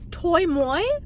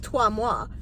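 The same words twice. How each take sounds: First: The name is said with an English pronunciation. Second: The name is said with a French pronunciation.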